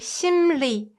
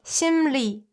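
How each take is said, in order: First: The second syllable begins with an l sound. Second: The second syllable begins with an l sound.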